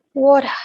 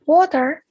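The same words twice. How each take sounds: First: "water" with the final R dropped; British pronunciation. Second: Said in the usual way. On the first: Shown as a demonstration. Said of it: "in British is pronounced as". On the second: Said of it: "which in British is pronounced".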